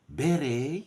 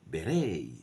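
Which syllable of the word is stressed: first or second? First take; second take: first; second. First: The stress is on the first syllable. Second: The stress is on the second syllable. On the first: This is the British pronunciation. "in the U K, stress on the first syllable" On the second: This is the American pronunciation.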